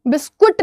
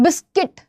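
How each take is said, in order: First: The word ends with a 'kut' sound. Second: The word ends with a plain 'kit' sound. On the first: The speaker calls it wrong. "बिस्कुट नहीं बोलते हो" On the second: The speaker calls it right.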